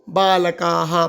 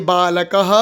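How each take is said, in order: First: बालकाः with long "kaa" before the final "ha"; बालकाः as "baa-la-kaaa-ha"; long-vowel visarga. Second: बालकः with short "ka" and a final "ha"; बालकः as "baa-la-ka-ha"; short-vowel visarga. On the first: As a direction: lengthen the last vowel of बालकाः, then add "ha". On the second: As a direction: model बालकः syllable by syllable, ending "ka-ha". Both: Shown as a demonstration. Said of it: "तो कैसे बोलेंगे".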